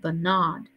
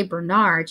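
First: Bernard drawn out slowly; Mama's way of saying Bernard. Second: Said in the usual way. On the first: A narrator's reading. Narrator slowly repeats Mama's way of saying Bernard. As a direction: stretch out Bernard like Mama. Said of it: "she said Bernard". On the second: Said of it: "she didn't say Bernard".

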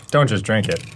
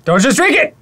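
First: Said in the usual way. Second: Higher, louder urgent yell; alarmed shout. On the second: Real, not acted. Warning partner not to drink.

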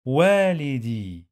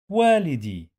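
First: والدي drawn out slowly as "waa-li-dee"; slow teaching model of والدي, final "ee" held; long vowels. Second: Said in the usual way. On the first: Shown as a demonstration. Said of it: "long vowel ياء".

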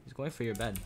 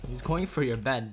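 First: Said in the usual way. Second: Louder warning. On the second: Real, not acted. Warning a teammate, repeated louder.

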